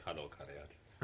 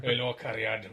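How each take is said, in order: First: Slow lilting Welsh greeting; Welsh accent. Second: Broad Welsh greeting, louder; Welsh accent. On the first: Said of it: "as Stan would like to say". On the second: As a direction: lay the Welsh on thick. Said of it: "Never sounded so Welsh". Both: Retold or imitated.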